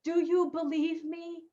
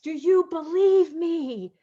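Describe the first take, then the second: First: A softer, higher inner voice asking gently; a hint of an inner voice, softer and higher; voice of knowing. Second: Voice of love. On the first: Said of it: "If your knowing said to you and asked you". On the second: Acted. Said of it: "If love were to ask".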